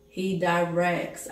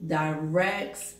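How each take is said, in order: First: Slow, with "directs" leaned on hard; stress on directs. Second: Said in the usual way. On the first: Shown as a demonstration. Preacher stressing "directs" to his congregation, slow and weighty. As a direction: drive home the word "directs".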